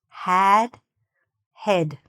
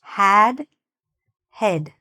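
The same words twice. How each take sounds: Both takes have the same delivery.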